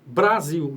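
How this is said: It is said with a native Brazilian Portuguese accent. "a gente fala Brasil"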